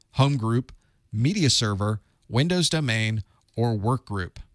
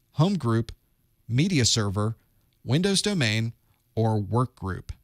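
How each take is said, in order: No difference in how they are said.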